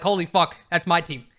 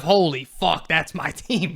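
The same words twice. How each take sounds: First: Proud, amazed exclamation about the team; thrilled pride. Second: Deflated, half-laughing exclamation with a rising end; resigned disbelief. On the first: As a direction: say it like you love watching your team. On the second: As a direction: say it like the team embarrasses you. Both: Shown as a demonstration. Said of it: "it's a totally different vibe".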